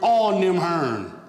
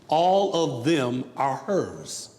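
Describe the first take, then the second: First: The phrase is run together quickly. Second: The phrase is said slowly and fully.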